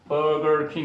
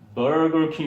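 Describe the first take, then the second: First: It is said with a native English pronunciation. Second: It is said with a Korean-accented pronunciation. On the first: The speaker calls it right. "버거킹 이래야 되는데" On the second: The speaker calls it wrong. "우린 주로 버거킹 이런 식으로 발음한다"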